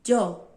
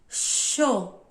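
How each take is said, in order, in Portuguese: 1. Começa com um som parecido com d. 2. Começa com um som parecido com sh. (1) "O mais conhecido é o de D" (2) "tem o som de é, X ou C H"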